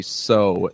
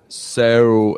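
First: Said in the usual way. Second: "so" with an attempted Australian curved vowel; attempted Australian accent. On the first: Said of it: "the way that Australian people say". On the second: Shown as a demonstration. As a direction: try "so" the Australian way, bending the vowel. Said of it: "I can't do it. I try".

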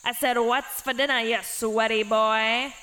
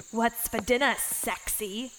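First: Hammed-up goblin repeating louder; louder goblin demand. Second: Croaked goblin line. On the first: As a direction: bellow it the second time, impatient. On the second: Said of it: "croaked the goblin". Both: A narrator's reading.

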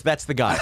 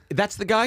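First: "That's the guy" in usual pitch, falling at the end; confirming statement. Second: "That's the guy" high, rising at the end; incredulous question. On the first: Friend confirms who he is, falling statement on "That's the guy". Same words retold as statement. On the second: Friend comes over to check on him, incredulous question on "That's the guy". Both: Retold or imitated.

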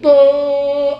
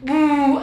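First: Loud, held noisemaker "uh"; imitated party toot. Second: Failed noisemaker "uh"; an awkward try at a party hoot; ugly imitated hoot. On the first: Doctor retries the celebration noise, loud toot. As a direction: toot it out firmly like a party horn. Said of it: "Algo así, no sé". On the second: Doctor fumbles imitating a celebration noise, awkward hoot. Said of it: "qué feo se escuchó eso". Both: Shown as a demonstration.

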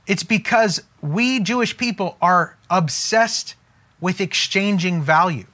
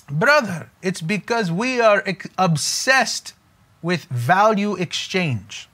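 First: Said in the usual way. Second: Put-on lightly done Jewish accent; a hint of a Jewish accent, unhurried. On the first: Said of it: "But he says". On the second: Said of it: "that was my Jewish accent".

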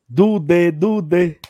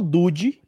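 First: "Dude" as du-DÊ, chanted loudly twice; chanted pronunciation. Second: "Dude" as DÚ-dji; intended pronunciation. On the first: Retold or imitated. Recalling fans chanting the player, "Dude" as du-DÊ. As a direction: chant "Dude" with a stretched final DÊ. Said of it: "quem diabo é Dude". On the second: Shown as a demonstration. Explaining the player's real nickname, "Dude" as DÚ-dji. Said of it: "O cabo entender que é o".

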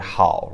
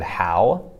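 First: "hao" with a froggy o at the end; Chinese hao. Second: "how" as the plain English question word. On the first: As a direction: finish Mandarin "hao" on a froggy o. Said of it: "versus the Chinese word". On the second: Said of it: "like the English word". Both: Shown as a demonstration.

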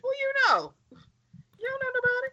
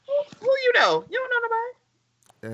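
First: High squeaky mock taunt; mocking falsetto. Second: High squeaky taunt with a cry in it; mocking falsetto. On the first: Friends mocking the Hound's line in a high squeaky voice. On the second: Friend repeats the Hound's line, squeaky and crying out. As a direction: whine it high like a teasing child.

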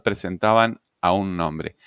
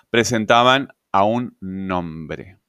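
First: Said in the usual way. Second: "presentaban a un nombre" said slowly, leaning on "presentaban"; slow emphatic. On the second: Shown as a demonstration. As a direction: drag it out, weight on "presentaban".

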